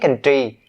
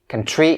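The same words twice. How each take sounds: First: The 'tr' is released without a puff of air. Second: The 'tr' is released with a puff of air. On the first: The speaker calls it wrong. "Don't say country" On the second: The speaker calls it right. "you have to push some air out and say country"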